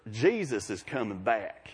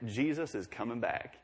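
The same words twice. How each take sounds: First: Slow, lower deep South drawl on Jesus is coming back; a Southern Mississippi accent, drawn out. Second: Said in the usual way. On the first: Retold or imitated. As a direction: stretch it out like a Mississippi coworker. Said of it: "she's got deep South". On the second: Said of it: "And she's from Mississippi. So for her".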